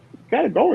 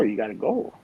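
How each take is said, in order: First: Urgent outburst. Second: Said in the usual way. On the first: Retold or imitated.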